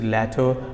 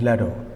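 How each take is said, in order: First: It is said with a British accent. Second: It is said with an American accent. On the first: "In British English, it is latter" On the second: "in American English, it becomes ladder"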